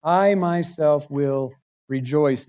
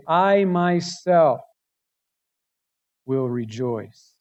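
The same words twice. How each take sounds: First: Slow, even "I myself will rejoice"; "I" gently stressed, even delivery; steady emphasis. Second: Slow, weighty "I myself"; emphatic I. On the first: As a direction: stress "I" calmly at normal level. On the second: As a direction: lean hard on "I" in "I myself". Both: Shown as a demonstration. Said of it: "emphatic in the Hebrew".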